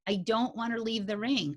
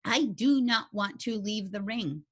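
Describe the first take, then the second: First: Said in the usual way. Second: "do not" spelled out, each word given weight; stress on do not. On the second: Real, not acted. To the class, firm stress on "do not". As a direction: lean hard on "do not".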